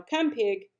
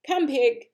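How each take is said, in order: First: Said in the usual way. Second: Louder, higher call to the pig; farmer calling. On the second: Acted. Farmer luring the pig with slops, louder call. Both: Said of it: "said Mister Zuckerman".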